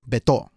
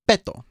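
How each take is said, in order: First: The stress is on the second syllable. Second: The stress is on the first syllable. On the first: The speaker calls it wrong. "not Beto" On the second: The speaker calls it right. "the emphasis goes on the second to the last syllable. So that means it's Beto"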